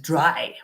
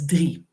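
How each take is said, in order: First: The vowel sounds like 'eye', as in dry. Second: The vowel sounds like 'ee', as in tree. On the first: The speaker calls it wrong. "if you read it from an English perspective, you might think it says dry" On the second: The speaker calls it right. "maar it's drie"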